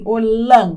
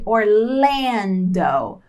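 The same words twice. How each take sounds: First: It is pronounced with Portuguese sounds. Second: It is pronounced with English sounds. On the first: "Em português é assim" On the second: "Em inglês vai ser Orlando"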